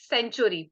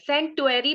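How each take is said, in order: First: The middle consonant is a ch sound. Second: The middle consonant is a plain t sound. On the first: The pronunciation the speaker uses. "But I pronounce it सेंचुरी" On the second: A pronunciation many people use. "सेंटुअरी भी कई लोग बोलते हैं"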